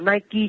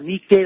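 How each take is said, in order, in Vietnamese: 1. Từ Nike được phát âm theo kiểu tiếng Anh. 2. Từ Nike được phát âm theo kiểu tiếng Hy Lạp cổ. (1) "Đọc là Nike của tiếng Anh đó" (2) "nó là Nike trong tiếng Hy Lạp cổ"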